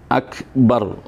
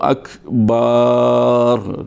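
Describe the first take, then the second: First: The vowel after the b is short. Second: The vowel after the b is drawn out long. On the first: The speaker calls it right. "Harus dibaca akbar" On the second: The speaker calls it wrong. "tidak boleh ba'nya lapan akbar itu dipanjangkan"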